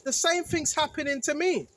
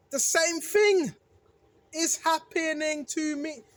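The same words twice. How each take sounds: First: Said in the usual way. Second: Slowed right down, every word weighed, "thing" leaned on; slow emphatic repeat. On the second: Shown as a demonstration. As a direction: spell it out slowly so it sinks in.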